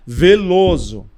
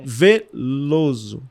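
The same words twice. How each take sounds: First: The middle L is short, said at normal speed. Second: The middle L is held longer, said more slowly. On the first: It is spelled with one L. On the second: It is spelled with two Ls.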